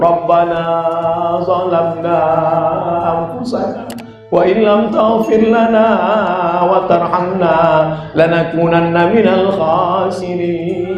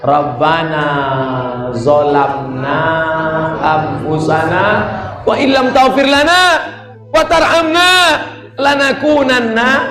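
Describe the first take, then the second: First: It is said softly, without shouting. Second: It is said loudly, almost shouted.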